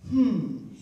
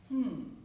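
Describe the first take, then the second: First: It is said loudly. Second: It is said quietly.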